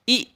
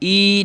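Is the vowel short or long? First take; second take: short; long. First: The vowel is short, not drawn out. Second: The vowel is long and drawn out. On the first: The speaker calls it right. "ई कहेंगे" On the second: The speaker calls it wrong. "ई नहीं कहेंगे"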